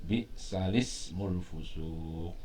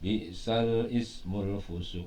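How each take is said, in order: First: The vowel moves onto the 'l' with no glottal stop. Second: A glottal stop is pronounced before 'ismu'. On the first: The speaker calls it right. "memindahkan eh, harokat" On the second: The speaker calls it wrong.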